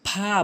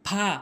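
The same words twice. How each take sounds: No difference in how they are said.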